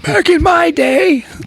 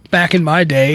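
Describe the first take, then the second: First: It is said in a put-on old man's voice. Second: It is said in his normal voice.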